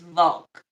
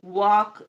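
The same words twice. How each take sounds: First: The word begins with a V sound. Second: The word begins with a W sound. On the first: "instead of saying W's, we say V's" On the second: "instead of W"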